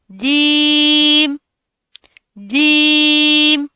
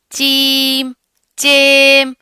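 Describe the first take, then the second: First: جیم drawn out slowly with a clear j; the right way, long and slow جیم; proper jeem. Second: جیم said as چیم with a ch sound; wrong che sound. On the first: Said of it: "proper طریقے سے ادائیگی کریں گے". (درست ادائیگی، جیم) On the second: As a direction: show the mistake, چیم. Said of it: "اس طرح نہیں کرنا آپ نے". (غلط ادائیگی، چیم) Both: Shown as a demonstration.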